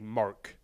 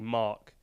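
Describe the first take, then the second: First: It is said in an American accent. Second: It is said in a British accent.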